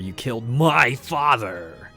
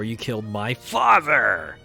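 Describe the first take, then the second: First: The stress falls on the word my. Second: The stress falls on the word father.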